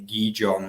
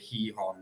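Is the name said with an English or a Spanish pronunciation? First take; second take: English; Spanish. First: The name is said with an English pronunciation. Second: The name is said with a Spanish pronunciation. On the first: This is how English speakers usually say it. "which we probably say in English" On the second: This is how the locals say it. "the Spanish say Gijón"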